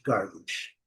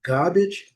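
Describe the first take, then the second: First: American "garbage" with R, low and soft; low falling American take of "garbage"; American English. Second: British "garbage" with no R, rising tune; British take of "garbage", R dropped; British English. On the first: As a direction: say "garbage" as GAR-bidge, American, dropping away. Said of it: "nos Estados Unidos ou Canadá". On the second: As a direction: say "garbage" as GAH-bidge, lifted as first of two. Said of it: "em Londres". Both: Shown as a demonstration.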